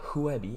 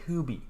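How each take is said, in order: First: The u and e are said as two vowels. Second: The first vowel is a single umlaut sound. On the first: The speaker calls it wrong. "So it's not Huebi" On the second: The speaker calls it right. "it's Hubi"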